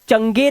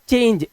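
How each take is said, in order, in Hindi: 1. g को कठोर 'g' की ध्वनि की तरह बोला जाता है। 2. g को 'j' की ध्वनि की तरह बोला जाता है। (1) "इसे चंगे नहीं पढ़ा है" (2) "इसको हमने पढ़ा चेंज"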